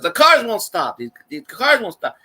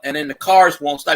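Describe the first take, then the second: First: Put-on a rough try at the Cajun truck driver's accent; attempted Cajun accent. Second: Said in the usual way. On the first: Retelling the Cajun trucker's complaint in a weak Cajun accent. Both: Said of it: "I can't do his voice".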